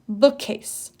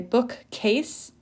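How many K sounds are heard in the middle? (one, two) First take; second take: one; two. First: A single K sound is pronounced in the middle. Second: Two separate K sounds are pronounced in the middle. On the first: The speaker calls it right. "just one" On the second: The speaker calls it wrong. "you're not going to say bookcase, bookcase, not two k's"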